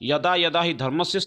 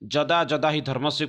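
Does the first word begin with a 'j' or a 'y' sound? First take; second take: y; j. First: The first word begins with a 'y' sound. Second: The first word begins with a 'j' sound. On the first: The speaker calls it right. "ୟଦା ୟଦା ହି ଧର୍ମସ୍ୟ ସ୍ଥାନରେ" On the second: The speaker calls it wrong. "ଜ ବୋଲିକି"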